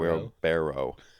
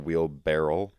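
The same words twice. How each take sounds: First: The word ends without an L sound. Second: The word ends with an L sound. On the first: The speaker calls it right. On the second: The speaker calls it wrong.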